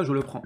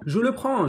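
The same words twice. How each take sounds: First: Said in the usual way. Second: Je le prends said higher and insistent; emphatic repeat. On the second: Real, not acted. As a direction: insist on je le prends the second time. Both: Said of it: "repeats to insist".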